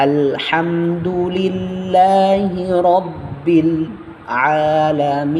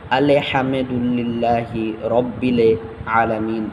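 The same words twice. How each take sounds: First: "আলহামদুলিল্লাহি রব্বিল" with the l and b stopped crisply, no added vowel; slow, higher melodic "রব্বিল আলামিন" without "বিলে"; correct stopped consonants. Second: "আলে হামেদুল্লিল্লাহি রব্বিলে" with extra vowels after the stopped consonants; wrong doubled pronunciation. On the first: Teacher modelling the right way after the mistake, "রব্বিল" stopped cleanly. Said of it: "কখনোই আমরা বিলে বলবো না". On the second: Teacher showing students a common mistake, "আলে" with an added e. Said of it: "অনেকেই পড়ে এইভাবে". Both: Shown as a demonstration.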